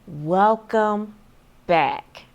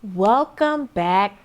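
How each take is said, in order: First: It is said slowly and deliberately. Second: It is said at a normal, quick pace.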